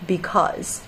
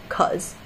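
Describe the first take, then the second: First: The word is said in full with both syllables. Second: The first syllable is dropped, leaving one syllable.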